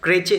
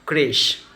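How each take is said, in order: First: The word is said with a ch sound. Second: The word ends with an sh sound. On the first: The speaker calls it wrong. "च नहीं होता" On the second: The speaker calls it right. "श होता है"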